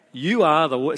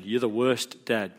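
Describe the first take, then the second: First: Put-on slightly louder accusing kid; mock accusation. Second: Said in the usual way. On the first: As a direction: fling it at dad like an accusation. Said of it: "so it's an accusation". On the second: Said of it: "looks at you and says".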